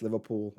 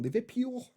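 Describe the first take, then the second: First: Said in the usual way. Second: Liverpool said in a put-on Scouse accent, higher. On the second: Shown as a demonstration. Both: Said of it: "that were my best Liverpool accent".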